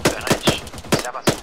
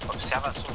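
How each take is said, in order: First: Loud shouted callout; shouting. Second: Said in the usual way. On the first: Real, not acted. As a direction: yell it across the field. Calling teammate in firefight.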